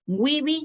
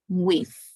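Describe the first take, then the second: First: The word is said as two syllables. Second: The word is said as one syllable. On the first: The speaker calls it wrong. "Weeby, no. Weeby doesn't exist" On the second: The speaker calls it right. "this word has only one sound"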